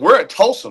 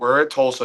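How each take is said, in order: First: It is said with lively, proud enthusiasm. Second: It is said flatly, with a let-down tone. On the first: Being here is something big. The speaker calls it right. "No, it's ... Like this is this is big time" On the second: Being here is a letdown. The speaker calls it wrong.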